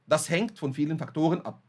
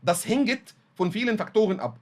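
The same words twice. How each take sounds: First: 'Hängt' ends in a tight consonant cluster, no added vowel. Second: An extra vowel is inserted into the consonants of 'hängt'. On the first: This is how a native speaker says it. The speaker calls it right. "قدامي المتحدث بيقول لي" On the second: The learner cannot pronounce two consonants in a row. The speaker calls it wrong. "ضاف من عنده حرف صوتي زياده"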